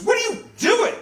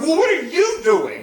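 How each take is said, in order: First: High, loud shout of alarm; shocked scolding. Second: High, loud indignant comeback on YOU; mad retort. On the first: Nurse catching a teenager with the camera, shocked. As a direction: shriek it as if catching someone red-handed. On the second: Busted teenager answering the nurse back, mad. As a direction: throw the question back, leaning on "you". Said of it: "it makes you so mad". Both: Retold or imitated.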